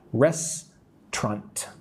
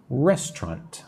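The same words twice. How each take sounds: First: "Restaurant" as RES, pause, TRANT; two separated syllables. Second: "Restaurant" in two beats, RES-trant; two syllables joined. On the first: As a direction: break "Restaurant" slowly into two parts. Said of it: "I also say with two parts". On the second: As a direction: join the two parts of "Restaurant" into one word. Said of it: "two syllables". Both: Shown as a demonstration.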